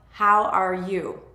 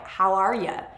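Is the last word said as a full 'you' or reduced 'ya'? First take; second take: full you; reduced ya. First: The last word is a full, clear 'you'. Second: The last word is reduced to 'ya'.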